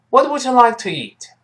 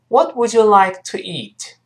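First: The question is said at a faster pace. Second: The question is said at a moderate pace. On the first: "再快一点" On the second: "我们可以很快跟老师读一遍"

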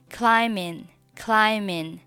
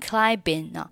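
First: No b sound is heard after the m. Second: A b sound is heard after the m. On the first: The speaker calls it right. "这里的字母b 它是不发音的" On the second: The speaker calls it wrong. "这个单词千万不要读成climbing"

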